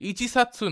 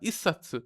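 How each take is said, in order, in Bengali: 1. সংখ্যাটি 'ichi' হিসেবে পুরো বলা হয়। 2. 'satsu'-র আগে সংখ্যাটি সংক্ষিপ্ত করা হয়। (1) "ইচিসাতসু না" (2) "এক্সেপশন"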